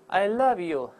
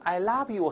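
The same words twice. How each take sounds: First: The vowel is a short, less open 'uh'. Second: The vowel is a wide open 'ah'. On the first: It sounds warm and affectionate. The speaker calls it right. "你看这读起来很亲切，很带感情。" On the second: It sounds silly. The speaker calls it wrong. "如果读成啊就难听"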